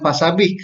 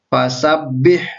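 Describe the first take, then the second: First: The b sound is single and short. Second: The b sound is doubled and held long. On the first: The speaker calls it wrong. "jadi bukan fasabih" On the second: The speaker calls it right. "ditekan, huruf bertasdid dibaca rangkap"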